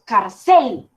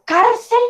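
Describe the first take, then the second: First: Slow "carcel" with CEL stretched and punched, car-CEEL; exaggerated last-syllable stress. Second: Slow "cárcel" with CAR stretched and punched; exaggerated first-syllable stress. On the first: Teacher offers the wrong option, "carcel" with exaggerated stress on CEL. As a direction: overdo the final CEL in "carcel". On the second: Teacher tests the ear aloud, "cárcel" with exaggerated stress on CAR. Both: Shown as a demonstration. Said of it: "toca exagerar un poco".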